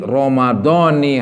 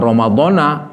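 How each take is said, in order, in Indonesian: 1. Kata itu diakhiri dengan vokal i. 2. Kata itu diakhiri dengan vokal a. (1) "yang benar sih" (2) "bukan Ramadhana"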